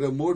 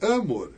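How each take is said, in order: First: The stress is on the second syllable. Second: The stress is on the first syllable. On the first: The speaker calls it right. "em vez de dizer amor" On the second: The speaker calls it wrong. "estou a mudar a tónica ... Isto é impossível"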